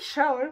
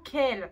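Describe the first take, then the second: First: The name starts with an SH sound. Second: The name starts with a K sound. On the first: This is how French readers say it. "Nous, en français, c'est Shaol" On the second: This is apparently the official pronunciation. "il paraît que ça se prononce apparemment Kel"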